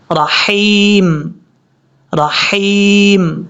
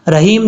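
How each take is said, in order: First: Very slow 'رحیم', long held ee; correct fine ha. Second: Short 'رحیم' with an ordinary h; wrong heavy h. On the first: Teacher shows the right way, slow correct recitation. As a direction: draw 'رحیم' right out on a throaty ح. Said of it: "اس طریقے سے". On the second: Teacher shows what to avoid, mistaken recitation. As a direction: say 'رحیم' quickly, vowel unheld. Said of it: "نہیں پڑھنا". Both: Shown as a demonstration.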